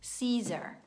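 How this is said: The final R sound is soft and held back. "c'è un suono che assomiglia a una R, ma è molto molto interno nella nostra gola"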